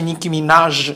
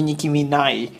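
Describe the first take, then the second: First: The surname ends with a 'zh' sound. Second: The surname ends with a 'y' sound. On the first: The speaker calls it right. "wymawia się Nicki Minaj" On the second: The speaker calls it wrong. "a nie Nicki Minaj"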